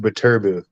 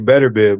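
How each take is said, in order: First: The name begins with a 'ba' sound. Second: The name begins like the word 'better'. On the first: The speaker calls it right. "it is Baturbid. That's how you should pronounce it" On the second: The speaker calls it wrong. "I used to say better bid"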